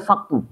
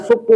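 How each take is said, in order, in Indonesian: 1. Vokal pertama adalah bunyi a. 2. Vokal pertama adalah bunyi u. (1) "boleh dibaca saktu" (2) "bisa dibaca suktu"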